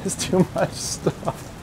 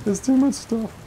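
First: Breathy laughing, half the words lost in a chuckle; giggling out the words, slowly. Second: Said in the usual way. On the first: Real, not acted. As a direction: laugh through it at half speed.

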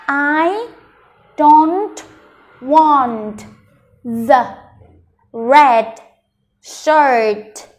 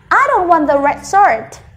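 First: Slow, each word separated by a clear pause. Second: Whole sentence in one flow, higher pitched; fluent and confident. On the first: Teacher building the sentence for learners, word by word with long gaps. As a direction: read it out one careful word at a time. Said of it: "mình đọc cả câu". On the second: Teacher modelling the full sentence, fluent and joined up. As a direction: run the words together confidently. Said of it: "thật là trôi chảy và thật là tự tin". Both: Shown as a demonstration.

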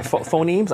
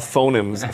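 First: Unsure, rising retry of "phonemes" as FOH-neemz; "phonemes" retried with a higher, questioning lift; self-corrected pronunciation. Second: "phonemes" slipping into FOH-numz; "phonemes" said wrongly as FOH-nimz; mispronounced word. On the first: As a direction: stutter into "phonemes", long ee, questioning. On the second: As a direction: stumble on "phonemes", weak short second vowel. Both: Real, not acted. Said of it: "I can't get that word right".

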